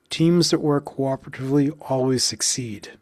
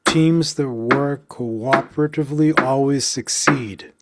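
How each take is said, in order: First: Said in the usual way. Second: Slow, punched Teams, work, always, succeed; rhythmic, deliberate stress; counted stress beats. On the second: Shown as a demonstration. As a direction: beat out each stressed syllable. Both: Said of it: "One more time".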